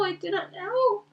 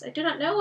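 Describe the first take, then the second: First: Slow, higher, anguished repeat; grieving. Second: First denial, louder and strained; troubled. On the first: Boromir to Aragorn, head in hands, anguished repeat. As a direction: let the grief break through on the repeat. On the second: Boromir to Aragorn, first troubled denial. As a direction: say it as he begins to break. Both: Acted. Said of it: "as if bowed with grief".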